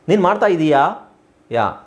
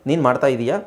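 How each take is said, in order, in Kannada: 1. ಕೊನೆಯ ಸ್ವರ ಉದ್ದ. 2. ಕೊನೆಯ ಸ್ವರ ಸಣ್ಣದು. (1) "ಪ್ರಶ್ನೆ ಮಾಡಿದಾಗ ಇದೀಯಾ ಯಾಕಾರ ಬರುತ್ತೆ, ದೀರ್ಘ" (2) "ಈ ಸಣ್ಣ ಯಾ ಬಂದಾಗ ಅದು ಉತ್ತರ"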